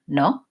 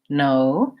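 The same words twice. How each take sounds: First: The vowel stays short and steady. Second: The vowel is lengthened and glides. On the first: The speaker calls it wrong. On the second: The speaker calls it right.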